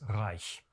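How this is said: The word is said with a German pronunciation. "If I was speaking German, I would of course refer to the Drittes Reich"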